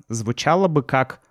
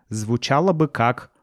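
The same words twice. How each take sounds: The two takes are said the same way.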